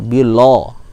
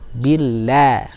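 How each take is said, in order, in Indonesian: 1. Bunyi l itu tebal. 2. Bunyi l itu tipis.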